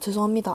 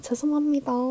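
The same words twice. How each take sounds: First: It is said in a strong, firm way. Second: It is said in a smiling, friendly way. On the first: The speaker is refusing and will not give in. "강하고 단호하게" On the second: The speaker is politely apologizing to calm the customer. "웃으면서"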